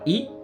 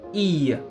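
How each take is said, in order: First: The vowel sound is short. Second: The vowel sound is long. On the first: The speaker calls it wrong. "Pas I" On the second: The speaker calls it right. "mais I. Un I long"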